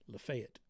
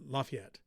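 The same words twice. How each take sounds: First: It is said the way Georgians say it. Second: It is said the usual non-Georgia way.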